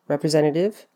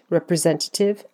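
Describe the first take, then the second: First: The T after N is dropped. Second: The T after N is clearly pronounced.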